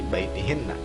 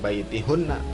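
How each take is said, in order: First: The vowel after h is an 'i' sound. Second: The vowel after h is a 'u' sound. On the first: The speaker calls it right. "tapi baitihinna karena ada ila" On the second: The speaker calls it wrong.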